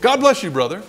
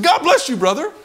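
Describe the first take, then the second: First: Said in the usual way. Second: Very high, loud mock-indignant blessing; comically strained, high-pitched shout; upset blessing. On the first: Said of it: "and I was upset now". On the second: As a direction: yell the blessing after him, upset. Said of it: "I was upset now. I said".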